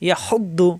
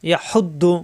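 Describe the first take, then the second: No difference in how they are said.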